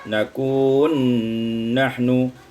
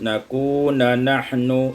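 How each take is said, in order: First: The two n sounds merge into one doubled n. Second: A vowel separates the two n sounds.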